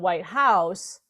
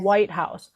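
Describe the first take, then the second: First: The stress falls on the word House. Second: The stress falls on the word White. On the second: It names the building where the president lives.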